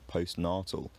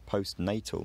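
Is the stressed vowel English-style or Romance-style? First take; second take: Romance-style; English-style. First: The stressed vowel has a Romance-language sound. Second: The stressed vowel has the English long sound. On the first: "not postnatal" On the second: "We say postnatal"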